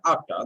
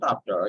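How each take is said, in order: First: The word is said with strong force. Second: The word is said with weak force. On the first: The speaker calls it right. "should give a little bit strength" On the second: The speaker calls it wrong. "you are pronouncing it in a very weak tone"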